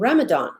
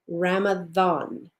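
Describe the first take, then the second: First: The middle consonant is a plain d sound. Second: The middle consonant sounds like a th sound. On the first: The speaker calls it wrong. "that's not the way it's pronounced" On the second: The speaker calls it right. "as if it were a T H"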